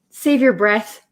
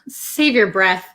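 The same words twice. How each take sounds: First: It is said in a friendly, reassuring tone. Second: It is said in an annoyed, rude tone. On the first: The listener is being spared wasted effort. The speaker calls it right. "maybe that's a little bit nicer way to use it" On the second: The listener is being dismissed. The speaker calls it wrong. "that might be a little bit mean. You might sound a little rude"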